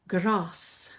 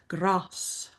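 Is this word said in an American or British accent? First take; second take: British; British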